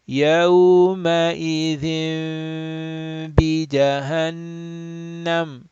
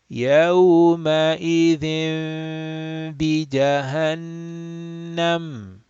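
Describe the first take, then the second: First: The n becomes a nasal m held two counts. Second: The n becomes a nasal m held two counts.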